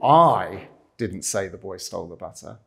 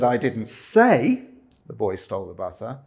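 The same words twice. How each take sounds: First: The stress is on "I". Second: The stress is on "say".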